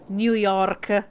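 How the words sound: It is said with an Italian accent. "we've always said New York and New Orleans like that in Italian"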